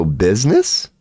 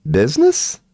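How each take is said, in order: First: Said in the usual way. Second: Much higher, squeaked rising question; sudden high squeaky questioning. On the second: Shown as a demonstration. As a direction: squeak the word like a puzzled cartoon. Repeats word, second time squeaky.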